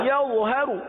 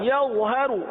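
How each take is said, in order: No difference in how they are said.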